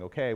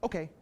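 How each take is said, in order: First: It is said in an ordinary conversational tone. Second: It is said in a distinct command tone. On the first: It is just part of normal talk. "me saying okay when I'm talking to you" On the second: It is a signal meant for the dog. "That sounds different from a dog's perspective"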